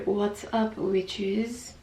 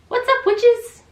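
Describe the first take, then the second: First: It is said with calmer, lower energy. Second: It is said with very high energy.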